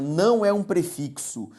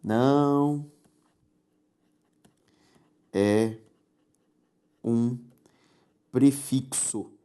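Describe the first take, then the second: First: "não é um prefixo" said slowly, leaning on não; slowed, stressed "não"; slow emphasis. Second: "não ... é ... um ... prefixo" with long pauses between each word; deliberate pauses after "não", "é" and "um". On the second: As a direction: space out "não é um prefixo", one word at a time. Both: Shown as a demonstration. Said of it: "Quando uma palavra tem sílaba tônica própria".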